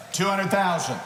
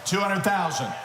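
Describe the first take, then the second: No difference in how they are said.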